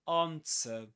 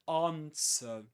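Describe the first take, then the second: First: It is said in a British accent. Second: The same.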